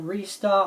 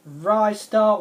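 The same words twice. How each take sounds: First: "Restar" with first syllable like "ree"; second pronunciation variant. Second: "Ristar" with first syllable like "rye"; first pronunciation variant. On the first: Gamer offering the other way to say the title, "Restar" as REE-star. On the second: Gamer offering one way to say the title, "Ristar" as RYE-star. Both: Shown as a demonstration. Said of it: "don't know how to pronounce it".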